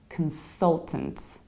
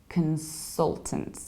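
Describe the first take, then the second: The two takes are said the same way.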